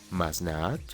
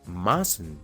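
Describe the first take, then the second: First: It is said as two full words. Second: It is said as one contracted word. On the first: The speaker calls it wrong. "en vez de decir" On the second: The speaker calls it right. "mejor di"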